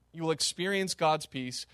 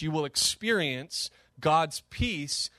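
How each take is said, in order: First: Said in the usual way. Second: "You will experience God's peace" read slowly, word by word. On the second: Shown as a demonstration. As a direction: quote it slowly and deliberately.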